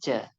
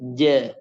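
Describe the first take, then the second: First: It starts with a light ch sound. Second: It starts with a firm, pressed j sound. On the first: The speaker calls it wrong. "bukan sekadar ca" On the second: The speaker calls it right. "Jim itu juga harus ditekan"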